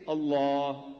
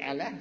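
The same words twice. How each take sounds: First: ALLAH slow, with long dark "aah"; correct pronunciation. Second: ALLAH short, with thin "a" as in cat; wrong pronunciation. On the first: Speaker corrects the audience's reading, drawn-out ALLAH. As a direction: draw out "Allah" on a heavy L and open ah. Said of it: "say Allah". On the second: Speaker warns against spelling-based reading, mispronounced ALLAH. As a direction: say "Allah" with a light L and front vowels. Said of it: "but don't say Allah". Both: Shown as a demonstration.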